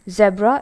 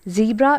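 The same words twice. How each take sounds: First: It is said in a British way. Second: It is said in an American way. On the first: "Zebra is the British pronunciation" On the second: "Zebra is the American pronunciation"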